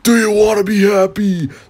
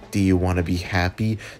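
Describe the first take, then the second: First: It is said loudly, like a scream. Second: It is said at a quiet, normal volume.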